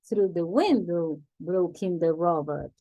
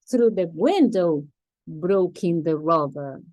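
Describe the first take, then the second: First: Said in the usual way. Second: Louder, dramatic storytelling read. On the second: Shown as a demonstration. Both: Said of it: "to put more drama in the story".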